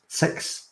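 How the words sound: The vowel sounds like the one in 'sex'. "someone with a Scottish accent... they say the number six like sex"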